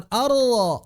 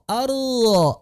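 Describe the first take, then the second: Both takes have the same delivery.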